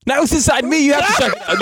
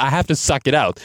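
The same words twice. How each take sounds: First: High, hammed-up frantic plea; mock panic. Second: Said in the usual way. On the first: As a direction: fake alarm, pleading for help.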